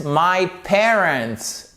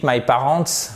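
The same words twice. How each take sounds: First: "parents" slowly, as PAIR-ents with stress on the first syllable; correct English pronunciation. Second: "parents" said the French way, ending in a nasal "-ants"; French-sounding mispronunciation. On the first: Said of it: "Oh, I meant my parents". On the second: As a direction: say "parents" wrongly, like the French word. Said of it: "si vous dites my parents". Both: Shown as a demonstration.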